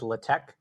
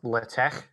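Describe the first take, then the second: First: It ends with a plain k sound. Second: It ends with a throaty ch sound. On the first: It is the lazy everyday version. "the way I pronounce it" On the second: It is the technically intended version. "kind of like loch"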